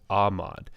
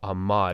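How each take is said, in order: First: The stress is on the first syllable. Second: The stress is on the last syllable. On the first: "as opposed to" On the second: "the accent goes on the final syllable"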